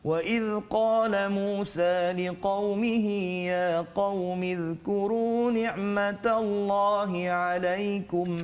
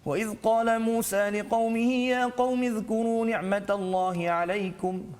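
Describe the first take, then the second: First: It is recited slowly, slightly faster than slowest. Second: It is recited at a very fast pace. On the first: "tartil itu laju sedikit ya" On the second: "bacaan yang paling laju pula dipanggil sebagai Al-Hadar"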